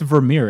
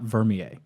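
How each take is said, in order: First: The name is said with a Dutch-sounding ending. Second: The name is said with a French-sounding ending. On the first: The speaker calls it right. "it's actually Vermeer. ... Vermeer is uh, is is Dutch" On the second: The speaker calls it wrong. "It's not Vermier. ... Vermier would be like uh, French or something"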